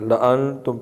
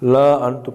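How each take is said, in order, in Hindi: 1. "la" स्वर को छोटा रखा जाता है। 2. "la" स्वर को लंबा खींचा जाता है। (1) "पढ़ना ठीक है" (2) "पढ़ना गलत है"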